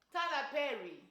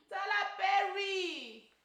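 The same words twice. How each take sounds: First: Said in the usual way. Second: Exasperated. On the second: Real, not acted. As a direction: drag the name out in disbelief. Exasperated at the director.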